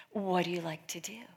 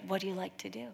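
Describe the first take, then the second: First: The Lord's question hushed to a whisper. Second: Said in the usual way. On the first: Retold or imitated. Quoting the Lord's gentle question to the girl, whispered. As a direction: breathe the question softly.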